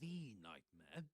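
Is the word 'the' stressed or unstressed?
stressed. The word 'the' is stressed, with a full vowel.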